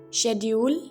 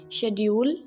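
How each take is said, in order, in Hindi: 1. यह ब्रिटिश लहजे में कहा गया है। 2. यह ब्रिटिश लहजे में कहा गया है।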